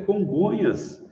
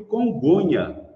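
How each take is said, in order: First: The word ends with a final s sound. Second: The word ends without a final s sound. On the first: The speaker calls it right. "que é Congonhas" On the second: The speaker calls it wrong. "eu não sei se ele comeu o S"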